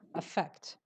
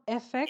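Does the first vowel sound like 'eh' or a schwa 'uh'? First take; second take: schwa; eh. First: The word begins with a weak schwa vowel. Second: The word begins with a clear 'eh' vowel. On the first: The speaker calls it right. "So it starts with a shaw" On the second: The speaker calls it wrong. "It's not effect"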